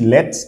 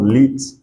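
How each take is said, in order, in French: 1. La voyelle se prononce comme un 'eh' bref. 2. La voyelle se prononce comme 'ee'. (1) "pourquoi on dit ici let" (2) "et non lit"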